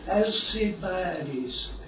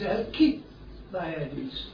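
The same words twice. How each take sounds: First: The name has a soft 's' sound after the 'l'. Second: The name has a hard 'k' sound after the 'l'. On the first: This is the usual English pronunciation. "we are generally taught to pronounce the name Alcibiades" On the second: This is the original Greek pronunciation. "but in the Greek it is Alcibiades"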